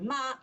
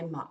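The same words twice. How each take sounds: First: The syllable is said on a high level pitch. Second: The syllable dips low then rises in pitch. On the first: It means mother. "mother, first tone" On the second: It means horse. "horse, third tone"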